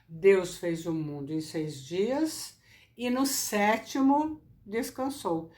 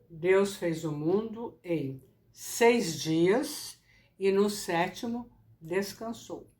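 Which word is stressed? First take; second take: sétimo; seis dias. First: The emphasis falls on "sétimo". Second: The emphasis falls on "seis dias". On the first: The moment of rest matters. "em que momento Deus descansou" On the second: The number of days of work matters. "salientar os seis dias"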